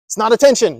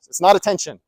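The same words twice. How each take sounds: First: Attention leaned on, a bit higher and louder; firm correction with attention stressed. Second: Not pressed, level and calm; steady restatement with not stressed. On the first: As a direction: lean hard into attention as the point. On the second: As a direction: tap the word not, keep the rest even. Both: Shown as a demonstration. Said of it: "No, these are not attention seeking".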